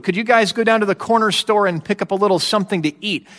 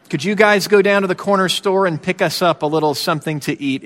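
First: Breezy, fast casual ask; offhand request. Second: Easy, casual little ask; offhand request. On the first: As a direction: toss it off like a small errand. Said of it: "That's how it, it sounds". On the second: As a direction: ask lightly as if reading the paper. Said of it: "is basically how this, how this sounds". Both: Retold or imitated.

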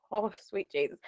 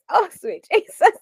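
First: Oh sweet Jesus breathed softly; quiet, awed oh sweet Jesus; hushed exclamation. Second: Oh sweet Jesus, high and laughing; giggling oh sweet Jesus; laughing exclamation. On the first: Retold or imitated. Quoting her reaction. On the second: Real, not acted. Embarrassed exclamation.

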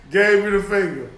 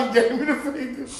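First: Said in the usual way. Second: Mock complaint. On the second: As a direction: imitate the offended driver through laughter. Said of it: "He be like".

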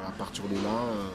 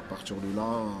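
The two takes are said the same way.

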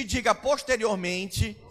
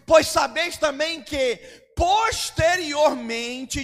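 First: Said in the usual way. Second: Posteriormente drawn out slowly; a stretched posteriormente. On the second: Shown as a demonstration. Preacher stretches the word for the congregation to repeat. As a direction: draw out posteriormente for the church to repeat.

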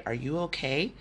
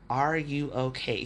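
First: Said in the usual way. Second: Slow, each word weighted, fall on "Are"; slow, deliberate repeat. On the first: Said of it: "my boss reached out to me one-on-one just to say". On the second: Retold or imitated. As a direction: lean into "Are you okay?" as three heavy words. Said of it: "Three little words".

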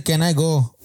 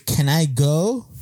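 First: Said in the usual way. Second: "can I go" slowly, with a swooping rise on "go"; mock correct pronunciation. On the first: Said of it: "No se dice can I go". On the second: Girl corrects pupils' English, mock-teacherly "can I go". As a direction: stretch "can I go" into a question. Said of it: "se dice can I go".

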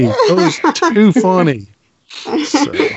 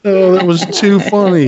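First: Said through a real laugh. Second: Said in the usual way. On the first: Real, not acted. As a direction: laugh while you say it. Laughing at a joke.

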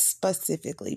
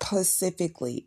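First: Said in the usual way. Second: "specifically" said as "pacifically"; mispronounced word. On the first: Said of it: "it's specifically". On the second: Shown as a demonstration. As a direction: drop the opening S of "specifically". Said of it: "I hate it when people say that".

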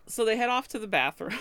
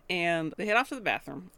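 First: Laughing through it. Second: Said in the usual way. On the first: Real, not acted. Retelling while laughing.

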